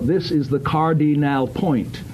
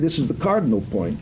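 First: Every syllable is exaggerated and over-precise. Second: The syllables are clipped and run together. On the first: "you don't need to be ludicrous and say" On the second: "But neither do you need to say"

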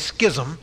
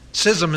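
First: The word begins with an sk sound. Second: The word begins with a plain s sound. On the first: This follows the Greek original. The speaker calls it wrong. "I always say schism, because the Greek pronunciation is schematso" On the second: This is the dictionary form. The speaker calls it right. "Schism is the correct pronunciation"

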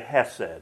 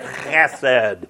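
First: It starts with a light breathy h sound. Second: It starts with a rasping sound deep in the throat. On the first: The speaker calls it wrong. "you don't say hesed. That's really bad" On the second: The speaker calls it right. "you got to get it down here"

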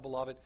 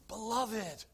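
First: It is said in an offhand, casual way. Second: It is said in a strong, emphatic way.

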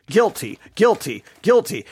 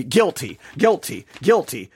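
Both takes have the same delivery.

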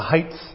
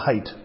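First: The word ends with a th sound. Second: The word ends with a t sound. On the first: The speaker calls it wrong. "with a TH on the end" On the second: The speaker calls it right. "when it's not, it's the height"

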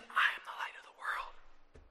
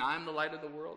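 First: It is said in a whisper. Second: It is said in a normal voice.

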